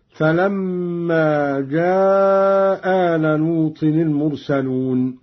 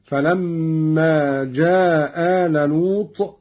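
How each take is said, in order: First: Very slow, جاء drawn out long with no hamza; lengthened vowel, dropped hamza. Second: جاء recited slowly as جا, hamza dropped, vowel short; slow, drop the hamza in جاء and keep it short. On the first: Teacher demonstrates Qalun's long reading, hamza dropped. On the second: Teacher demonstrates Qalun's short reading, hamza dropped. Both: Shown as a demonstration. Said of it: "مع القصر والمد هكذا".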